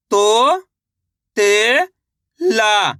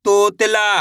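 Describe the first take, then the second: First: तो, ते, ला stretched apart, rising then falling on the last; syllable by syllable. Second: Said in the usual way. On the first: Shown as a demonstration. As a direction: sound out तो, ते, ला with gaps. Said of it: "इस तरीके से आप एक अक्षर का". (तो, ते, ला अलग-अलग खींचकर) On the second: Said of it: "शब्द का उच्चारण सही से हो जाएगा".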